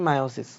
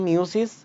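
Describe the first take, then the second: First: The first syllable has an 'eye' vowel. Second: The first syllable has an 'ee' vowel. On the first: The speaker calls it right. "এটা হবে মায়োসিস" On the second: The speaker calls it wrong. "অনেকে উচ্চারণ করে মিওসিস, এটা কিন্তু মিওসিস না"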